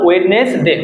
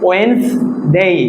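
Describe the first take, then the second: First: The middle d sound is clearly pronounced. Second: The middle d sound is left silent. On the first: The speaker calls it wrong. "আমরা কি বলতাম" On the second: The speaker calls it right. "ডিটা silent থাকবে"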